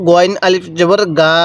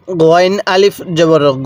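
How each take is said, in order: First: Ending গা stretched into a long a; wrong long reading. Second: Ending গ said short, with no long a after it; short গ, not গা; correct short reading. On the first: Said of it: "এরকমভাবে পড়বেন না". (ভুলভাবে শেষে লম্বা গা টেনে পড়া) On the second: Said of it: "এরকমভাবে পড়বেন". (শেষের গ ছোট করে পড়া, গা নয়) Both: Shown as a demonstration.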